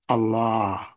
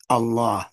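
First: The vowel is stretched out over two beats. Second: The vowel is short, held for one beat. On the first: This is the form introduced later by others. The speaker calls it wrong. "which has two beats" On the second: This is the form found in the scripture. The speaker calls it right. "it's always one beat. Regular fatha vowel"

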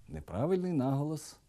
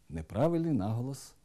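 No difference in how they are said.

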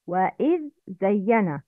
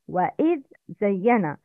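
First: The dh is heard clearly before the z. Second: The dh is heard clearly before the z.

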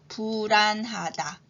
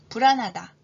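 First: The word is said slowly and deliberately. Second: The word is said at normal speaking speed. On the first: "천천히 두 번 하겠습니다" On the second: "이번에는 평균 속도로 해볼까요?"

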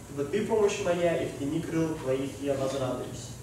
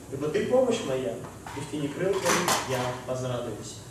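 No difference in how they are said.

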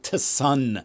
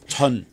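First: The T and S are said separately. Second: The T and S blend into a ch sound. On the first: The speaker calls it wrong. "it's not tsun" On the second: The speaker calls it right. "you're supposed to combine the T and the S together"

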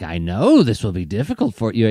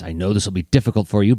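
First: It is said with an audibly smarmy, oily tone. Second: It is said in an even, regular voice. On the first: The condescension is made obvious. "the smarm would make its way through" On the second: The sarcasm stays understated. "He just does it in his regular voice"

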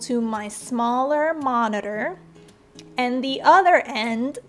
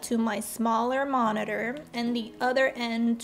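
First: The phrase is spoken at a slower pace. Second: The phrase is spoken at a normal, quicker pace.

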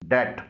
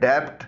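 First: No b sound is heard before the t. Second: A b sound is heard before the t. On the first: The speaker calls it right. "इस word में बी खामोश है" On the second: The speaker calls it wrong. "इसे डेप्ट न पढ़िएगा"

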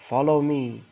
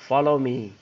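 No difference in how they are said.

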